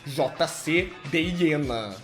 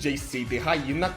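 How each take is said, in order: First: The name is pronounced with Portuguese sounds. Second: The name is pronounced with English sounds. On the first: "com a pronúncia em português, seria J C Deyena" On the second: "com a pronúncia em inglês"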